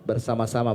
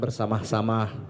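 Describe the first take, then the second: First: It is said without any added h sound. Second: It is said with an extra h sound. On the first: The speaker calls it right. "Bersama-sama bukan" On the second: The speaker calls it wrong. "kelebihan vitamin H"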